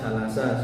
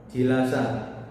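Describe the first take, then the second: First: The first vowel is a plain 'a'. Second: The first vowel is an 'i' sound. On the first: This is the reading of one recitation tradition. "dibaca biasa jalasa seperti itu tanpa perubahan" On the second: This is the reading of another recitation tradition. "dengan menambahkan huruf ya setelah huruf jim"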